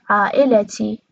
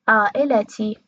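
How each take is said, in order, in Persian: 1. بین l و t یه صدای مصوت شنیده میشه. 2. بین l و t یه صدای مصوت شنیده میشه.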